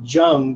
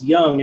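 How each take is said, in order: First: The name begins with a J sound. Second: The name begins with a Y sound. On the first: The speaker calls it wrong. "I called him Jung" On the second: The speaker calls it right. "but it's Young"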